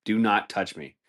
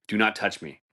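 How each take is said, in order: Both takes have the same delivery.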